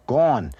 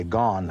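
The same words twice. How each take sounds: First: "gone" drawn out in hard Brooklyn; Brooklyn accent. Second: Said in the usual way. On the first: Shown as a demonstration. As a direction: give "gone" an old New York sound. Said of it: "but not in Brooklyn. You say". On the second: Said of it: "I say gone".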